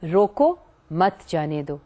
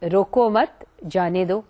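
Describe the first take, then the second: First: The pause comes after the word roko. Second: The pause comes after the word mat.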